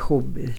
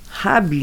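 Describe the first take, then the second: First: The first vowel sounds like 'oo'. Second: The first vowel sounds like 'a'. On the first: The speaker calls it wrong. "nie huby" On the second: The speaker calls it right. "Habi, nie huby"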